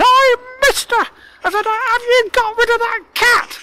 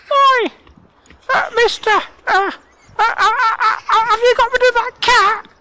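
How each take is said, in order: First: Very high, squeaky troll, calling out firmly; insistent little voice. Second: Very high, squeaky, hesitant troll voice; little tiny voice. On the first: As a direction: repeat it in a tiny, loud squeak. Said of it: "again the little voice said". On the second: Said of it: "he heard a little tiny voice". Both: A narrator's reading.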